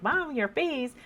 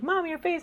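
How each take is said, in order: First: Daughter's voice. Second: Put-on much higher, childlike warning; a kid pointing out mom's face; daughter's voice. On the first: Retold or imitated. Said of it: "sometimes she's like". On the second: Daughter warns mom about her frowning face, in a high child voice. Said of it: "she's like".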